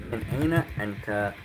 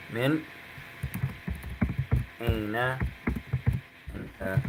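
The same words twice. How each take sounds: First: Quick, run together as one phrase; fluent. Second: Word by word. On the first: Teacher giving the whole question fast in one breath. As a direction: say it the way it flows in speech. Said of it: "Meaning, where are you from?". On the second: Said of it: "You can say that". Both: Shown as a demonstration.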